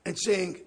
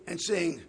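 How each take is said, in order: Both takes have the same delivery.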